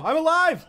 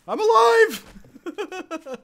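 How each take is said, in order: First: Excited shout. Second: Long, stretched, much higher and louder cry of I'm alive; drawn-out victory cry. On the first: Survives the bear attack. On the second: Streamer to his chat, cheering that he survived, a stretched victory cry. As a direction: hold every sound of alive like a triumphant song. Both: Real, not acted.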